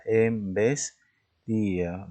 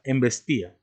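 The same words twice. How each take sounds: First: Embestía stretched out slowly so the í-a break is heard; slowly drawn out. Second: Said in the usual way. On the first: Shown as a demonstration. Teacher showing the hiatus to a student, slow and drawn out. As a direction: draw out Embestía to show the i and a apart. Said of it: "Estaría en I y en A". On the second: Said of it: "embestía tiene cuatro sílabas".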